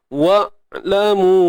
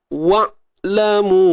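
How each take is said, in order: Both takes have the same delivery.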